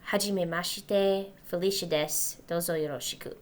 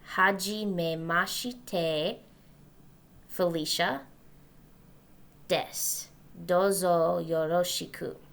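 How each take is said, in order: First: The phrase is said at a faster pace. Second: The phrase is said at a slower pace.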